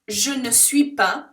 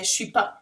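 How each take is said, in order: First: The little word ne is pronounced in full. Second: The little word ne is dropped completely. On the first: "We don't tend to say that at all" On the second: "so we drop the N E completely"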